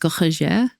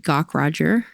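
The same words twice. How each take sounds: First: The name is said the German-French way. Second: The name is said with an American accent.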